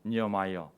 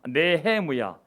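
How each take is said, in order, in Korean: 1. 이 이름은 영어식으로 'Niamaia'라고 발음합니다. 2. 이 이름은 히브리식으로 'Nehemuya'라고 발음합니다. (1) "영어로는" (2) "네헤무야지만"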